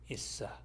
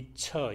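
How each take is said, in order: First: The s links smoothly onto the following vowel. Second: The ts becomes a 'ch' sound before the vowel. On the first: The speaker calls it right. "s만 이쪽으로 옮겨가서 어, 발음이 됩니다" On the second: The speaker calls it wrong. "흔히 이처 이런 식으로 발음하는 사람이 있는데 이처가 아니라"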